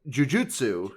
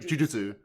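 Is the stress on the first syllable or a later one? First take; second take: later; first. First: The stress is on a later syllable. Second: The stress is on the first syllable. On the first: "with the American pronunciation" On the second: "with the accent on the first syllable"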